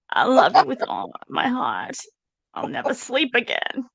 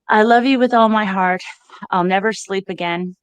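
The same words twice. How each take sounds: First: It is said in a put-on character voice. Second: It is said in the speaker's normal voice.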